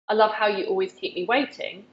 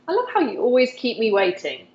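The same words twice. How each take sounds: First: It is said in a plain, flat tone. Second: It is said in a warm, playful tone. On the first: The speaker calls it wrong. "instead of saying" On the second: The speaker calls it right. "that really playful, warm way"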